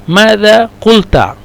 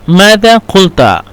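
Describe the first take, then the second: The two takes are said the same way.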